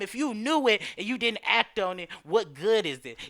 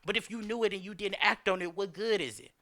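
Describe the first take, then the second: First: It is said slowly and deliberately. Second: It is said at a normal, quicker pace.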